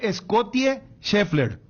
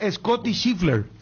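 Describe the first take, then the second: First: The name is read out with Spanish-style sounds. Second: The name is said with English-style sounds. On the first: This is how the name is written. "se escribe" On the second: This is how the name is actually pronounced. "se pronuncia"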